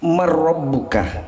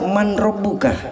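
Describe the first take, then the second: First: The n merges into a doubled r. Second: The n is pronounced before the r. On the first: The speaker calls it right. "jadi bacaannya adalah mar rabbuka. Ro-nya bertasdid" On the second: The speaker calls it wrong. "Banyak yang baca man rabbuka, padahal bukan man rabbuka"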